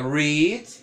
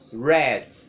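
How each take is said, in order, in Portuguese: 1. Não soa como a palavra red. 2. Soa quase como a palavra red. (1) "no presente fica read" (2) "no passado e particípio fica read. Praticamente quase o mesmo nome, né, da cor vermelha em inglês"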